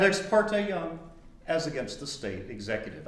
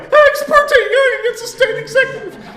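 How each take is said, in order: First: Said in the usual way. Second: Very high, loud, laughing squeak; squeaky nervous answer. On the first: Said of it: "I wasn't that snarky". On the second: Retold or imitated. The student answering the professor in a high, squeaky voice. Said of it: "My voice sounded more like".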